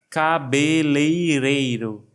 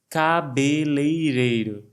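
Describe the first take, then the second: The two takes are said the same way.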